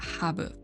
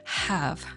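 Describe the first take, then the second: First: It ends with a b and an added vowel. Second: It ends with a v and no added vowel. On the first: The speaker calls it wrong. "It's not habu" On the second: The speaker calls it right. "It's have, nothing else"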